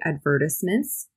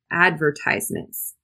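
First: It is said in a British way. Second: It is said in an American way. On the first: "If you're in Britain, you might say" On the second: "But in the US"

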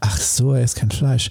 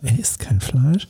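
First: It sounds relieved, like sudden understanding. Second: It sounds bewildered, like a confused question.

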